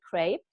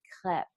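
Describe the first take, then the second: First: The word is said with an American pronunciation. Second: The word is said with a French pronunciation. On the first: "So here we say crepe" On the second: "the French way of saying it is crêpe"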